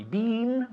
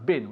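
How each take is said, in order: First: "Been" said like "bean", high and questioning; mispronounced with long vowel. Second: "been" said like "bin", lower and short; corrected short vowel. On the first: Teacher questions pupil's vowel, "Been" stretched to sound like "bean". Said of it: "We don't say been". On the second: Teacher corrects pupil, "been" pronounced like "bin". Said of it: "Yeah, been". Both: Shown as a demonstration.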